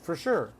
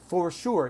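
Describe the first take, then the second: First: It uses the relaxed everyday spoken pronunciation. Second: It is pronounced carefully, exactly as spelled. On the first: The speaker calls it right. "That's the typical universal pronunciation" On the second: The speaker calls it wrong. "No one says for sure. ... We do not say it that way"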